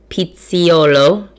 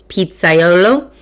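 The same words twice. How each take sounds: First: Pizziolo said slowly as pit-see-OH-lo, a syllable dropped; mispronounced. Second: Pizzaiolo said slowly as pit-sai-OH-lo, all syllables in; carefully fix it to pizzaiolo; self-correction. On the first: Host reading pizza history, slow stumbling try. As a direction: stumble over pizziolo, missing the -ai-. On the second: Host correcting her stumble reading pizza history, careful. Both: Shown as a demonstration.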